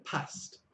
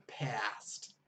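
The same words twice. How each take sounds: First: Short A in "past"; northern English accent. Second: Drawn-out flat American A in "past"; American accent. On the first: Teacher contrasting northern with American, northern English accent. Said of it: "But they say past". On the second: Teacher contrasting with northern speech, American accent. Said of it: "Americans say past". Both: Shown as a demonstration.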